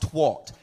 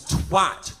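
First: The vowel does not rhyme with hat. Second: The vowel rhymes with hat. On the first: The speaker calls it wrong. "not twat" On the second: The speaker calls it right. "It is twat, It rhymes with hat"

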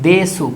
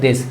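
First: The final u vowel is clearly pronounced. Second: The final u vowel is dropped. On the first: "এটা লিখছি দেসু" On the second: "জাপানিজরা যখন এটাকে বলে তখন এটাকে দেশ বলে"

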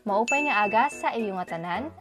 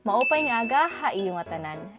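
First: The word before iyong starts with an S sound. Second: The word before iyong starts with an H sound. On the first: This is how it is said in Northern Samar. "Northern Samar, ganito ang maririnig nyo" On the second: This is how it is said in Eastern Samar and Leyte. "Eastern Samar at Leyte, ganito naman ang maririnig nyo"

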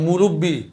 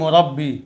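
First: The r is followed by an u vowel. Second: The r is followed by an a vowel. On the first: The speaker calls it wrong. "এই শব্দটা আমরা ভুল উচ্চারণ করি, মুরব্বি রফলে কি পেশ দিয়ে উচ্চারণ করি" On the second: The speaker calls it right. "কিন্তু রফলে কী হবে জবর হবে"

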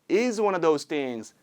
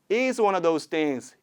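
No difference in how they are said.

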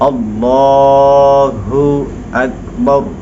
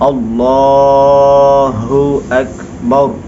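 Both takes have the same delivery.

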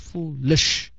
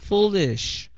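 First: The vowel is clipped, rushing into the sh. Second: The li vowel is clearly sounded before sh. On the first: The speaker calls it wrong. "Đừng có đọc là foolish. Chưa gì đã nhảy ra chữ sh rồi đó" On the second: The speaker calls it right. "mà phải đọc ra chữ ly trước"

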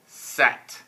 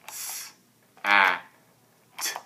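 First: The word is said as one smooth unit. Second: The word is broken into separate sounds. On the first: "Say it fast" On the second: "let's break it up and go"

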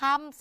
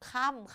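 First: The syllable has its plain, unmarked tone. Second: The syllable has the mai ek tone. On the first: "คออำคำ" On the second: "ใส่ไม้เอกเป็นค่ำค่ะ"

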